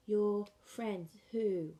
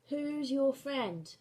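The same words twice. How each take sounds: First: Slow, who put last; BSL word order. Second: Slow, louder, who's first; English word order. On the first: Teacher modelling BSL who question, who last. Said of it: "In B S L, you would go". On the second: Teacher modelling English who question, slow and louder. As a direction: ask it with who's leading. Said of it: "and in English". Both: Shown as a demonstration.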